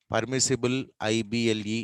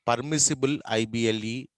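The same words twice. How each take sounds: The two takes are said the same way.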